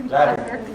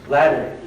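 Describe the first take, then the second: Both takes have the same delivery.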